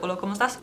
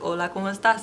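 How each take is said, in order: First: The phrase is spoken at a quick pace. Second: The phrase is spoken at a moderate pace. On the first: "A little faster" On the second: "A little faster"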